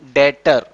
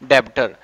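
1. बीच में कोई 'b' की ध्वनि नहीं बोली जाती है। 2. बीच में 'b' की ध्वनि बोली जाती है। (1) "लेकिन इसके अंदर बी जो है वो साइलेंट है" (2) "इसके अंदर बी मेंशन है इसको क्या पढ़ देता है"

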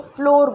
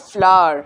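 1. यह 'floor' जैसा सुनाई देता है। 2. यह 'flower' जैसा सुनाई देता है। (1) "मैंने रेसिपीज़ में सुना लोगों को फ्लोर बोलते हुए" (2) "ये है फ्लावर"

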